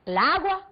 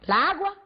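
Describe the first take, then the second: First: The two a sounds merge into one. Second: The same.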